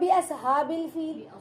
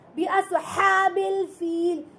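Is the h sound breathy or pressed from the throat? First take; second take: breathy; pressed. First: The h is a light breathy sound from the chest. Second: The h is pressed tightly from the throat. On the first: The speaker calls it wrong. "जब हा बोलते हो तो ये हलक से सीने की जानिब से आवाज आ रही" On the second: The speaker calls it right. "जब गले को दबाकर हलक से हा पढ़ते हो"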